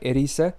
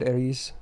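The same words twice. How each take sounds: First: The name is said with Japanese-style pronunciation. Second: The name is said with non-Japanese pronunciation. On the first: This is the original way to say it. "that's how it's in Japanese" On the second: This is the speaker's habitual way to say it. "I always said"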